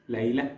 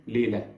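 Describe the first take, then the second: First: Layla ending in a tiny breathed h, "lay-lah"; subtle final h. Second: Layla in Egyptian Arabic, "le-la" with no final h; Egyptian Arabic accent. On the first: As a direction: finish Layla with a barely heard h. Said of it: "ends with a very subtle, very tiny H". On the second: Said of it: "And in my accent". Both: Shown as a demonstration.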